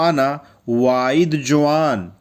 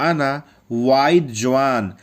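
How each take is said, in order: Both takes have the same delivery.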